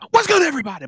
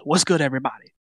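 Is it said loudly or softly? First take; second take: loudly; softly. First: It is said loudly. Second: It is said softly.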